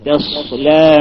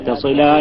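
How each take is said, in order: First: The first syllable sounds heavy and thickened. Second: The first syllable sounds light and thin. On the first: The speaker calls it wrong. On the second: The speaker calls it right.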